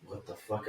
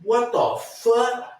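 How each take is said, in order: First: Barely audible, much softer, lower; quiet what the fuck. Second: High, slow, drawn-out voice of another man; stranger's what the fuck. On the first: Hiding in the stall, whispered-soft reaction. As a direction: keep it under your breath so nobody hears. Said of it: "I'm quiet". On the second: A man in the next stall reacts, high drawn-out voice. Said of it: "and then you hear". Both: Retold or imitated.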